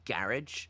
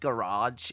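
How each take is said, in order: First: It is said with a Northern English pronunciation. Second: It is said with a Southern English pronunciation. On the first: "you mean garage?" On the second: "someone said garage in me in front of me"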